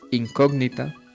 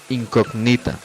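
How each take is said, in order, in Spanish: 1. La sílaba tónica es la antepenúltima. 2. La sílaba tónica es la penúltima. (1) "La sílaba tónica o el acento debe tenerlo en la antepenúltima sílaba" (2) "se convertiría claramente en una palabra grave"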